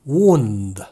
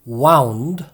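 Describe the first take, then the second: First: The vowel sounds like 'oo' in 'moon'. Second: The vowel sounds like 'ow' in 'cow'. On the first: It is a noun meaning an injury. "뒤에 것은 wound 라고 읽습니다. ... 상처라는 뜻을 지닌 명사죠" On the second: It is the past tense of 'wind'. "앞에 것은 wound, ... 앞에 wound는 동사 wind의 과거형입니다"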